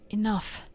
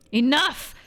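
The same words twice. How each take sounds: First: Said in the usual way. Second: Sudden loud yell, pitch jumping up. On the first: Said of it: "while I was voice acting". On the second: Acted. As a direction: explode with the word Enough!. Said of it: "She's mad because I yelled".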